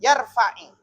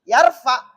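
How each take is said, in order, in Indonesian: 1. Kata ini diakhiri dengan vokal i pendek. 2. Kata ini diakhiri dengan konsonan tanpa vokal. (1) "menjadi kasroh, harakat bantu"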